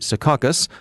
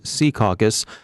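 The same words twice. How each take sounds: First: It uses the newer trendy pronunciation. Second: It uses the old-school local pronunciation. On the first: Recent arrivals say it this way. The speaker calls it wrong. "the trendy" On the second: Long-time locals say it this way. The speaker calls it right. "the old-school local pronunciation"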